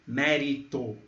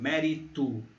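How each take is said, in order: First: The final vowel sounds like O. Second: The final vowel sounds like U. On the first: "em vez de" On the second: "nós podemos pronunciar com som de U"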